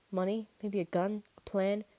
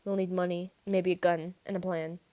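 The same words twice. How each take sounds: First: Each item lifted like a question; doubtful echo. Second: Said in the usual way. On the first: A narrator's reading. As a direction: repeat the list in disbelief.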